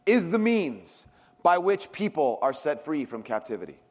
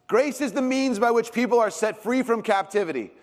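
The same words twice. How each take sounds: First: Said in the usual way. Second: Higher, stronger restatement of the line; emphatic repeat. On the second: Shown as a demonstration. Preacher repeating the definition for the congregation, emphatic and raised. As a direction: say it again so it sticks. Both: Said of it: "repeats the definition".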